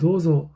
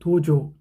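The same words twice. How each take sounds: First: The middle consonant is a voiced, buzzing z. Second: The middle consonant is a plain Korean-style j. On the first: The speaker calls it right. "도조라는 발음을 조 발음을 해야 되는데" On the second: The speaker calls it wrong. "잘 아, 못 배우면 어떻게 돼요?"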